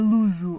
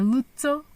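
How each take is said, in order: First: The name is said with a Portuguese accent. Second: The name is said with an Italian accent. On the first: The speaker calls it wrong. "à moda portuguesa" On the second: The speaker calls it right. "como se fosse italiano"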